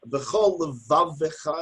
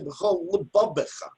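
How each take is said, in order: First: The second word has V sounds in the middle. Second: The second word has B sounds in the middle. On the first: The speaker calls it right. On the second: The speaker calls it wrong. "I can't add a dot. That's not good"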